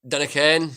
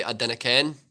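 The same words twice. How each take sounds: First: Dinna ken in broad Scottish, for I don't know. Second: I dinna ken in broad Scottish, for I don't know. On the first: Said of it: "instead of saying I don't know". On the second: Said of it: "we say". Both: Shown as a demonstration.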